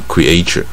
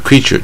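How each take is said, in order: First: The stress is on the second syllable. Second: The stress is on the first syllable. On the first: The speaker calls it wrong. "就不叫creature" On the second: The speaker calls it right. "他的造出来的生物叫creature"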